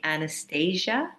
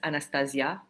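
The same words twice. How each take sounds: First: The name is said with an English pronunciation. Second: The name is said with a French pronunciation. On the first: "English speaking people call me Anastasia" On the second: "the French, it's Anastasia"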